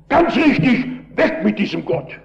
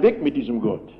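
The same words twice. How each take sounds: First: Shouting. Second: Said in the usual way. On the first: Retold or imitated. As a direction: shout back agreement with the miner. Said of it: "da habe ich geschrien". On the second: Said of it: "da dürfen Sie doch nicht schreien".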